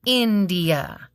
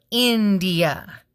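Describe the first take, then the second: No difference in how they are said.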